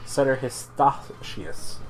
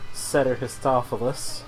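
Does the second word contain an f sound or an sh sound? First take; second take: sh; f. First: The second word is said with an sh sound. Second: The second word is said with an f sound. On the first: The speaker calls it right. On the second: The speaker calls it wrong.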